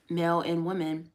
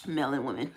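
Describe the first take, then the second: First: Said in the usual way. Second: "male and women" dropped low and flat; a deep, odd slip on "male and women"; oddly low. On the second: Shown as a demonstration. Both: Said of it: "I don't know why I said it like that".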